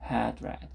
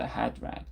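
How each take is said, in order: The two takes are said the same way.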